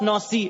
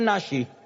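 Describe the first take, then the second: First: The middle consonant is an s sound. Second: The middle consonant is an sh sound.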